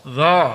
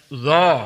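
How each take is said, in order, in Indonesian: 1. Suku kata itu terdengar tebal dengan bibir membulat. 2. Suku kata itu terdengar tebal dengan bibir membulat.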